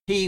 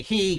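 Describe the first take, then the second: First: "he" as a firm exclamation; emphatic, stand-alone "he". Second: "he" held, then a slight break; HE with a comma. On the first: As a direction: punch "he" like an exclamation point follows. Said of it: "with an exclamation point". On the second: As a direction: say "he" as if a comma follows. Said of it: "maybe say "he, comma". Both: Shown as a demonstration.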